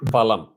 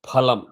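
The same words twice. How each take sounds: First: It begins with an f, lip against teeth. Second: It begins with an aspirated p from both lips. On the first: The speaker calls it wrong. "if your lip goes below the teeth it becomes f" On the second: The speaker calls it right. "it is pool phalam not phalam"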